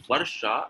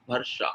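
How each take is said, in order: First: True v opening "Varsha"; correct V sound. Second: "Varsha" said as "Barsha"; both lips together to start "Varsha"; b replacing v in "Varsha"; wrong B sound. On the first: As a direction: teeth on lip for "Varsha". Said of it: "So it's Varsha". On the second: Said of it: "it is not Varsha". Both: Shown as a demonstration.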